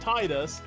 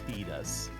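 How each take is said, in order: First: The first syllable sounds like the word 'tide'. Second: The first syllable does not sound like 'tide'. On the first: The name is read as coming from the word 'tide'. The speaker calls it wrong. "Not Titus, the man from the water. Tide" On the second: This is how the character says the name in the game. The speaker calls it right. "she says Titus"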